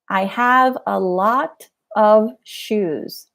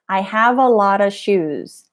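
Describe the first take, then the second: First: Each word of 'a lot of' is pronounced clearly. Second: 'A lot of' blurs together, like 'a lotta'. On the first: "instead of saying a lot of" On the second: "When you're watching a show, it probably sounds like"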